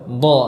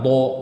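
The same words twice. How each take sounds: First: The lips stay back, without rounding the sound. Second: The lips push forward, rounding the sound. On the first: The speaker calls it right. "yang benar" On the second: The speaker calls it wrong.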